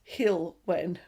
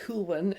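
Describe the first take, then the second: First: The first syllable sounds like 'hill'. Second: The first syllable sounds like 'hull'. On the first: The speaker calls it right. "no, it's Hilwen ... it's like, when is the hill coming?" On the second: The speaker calls it wrong. "I was calling it Hulwen"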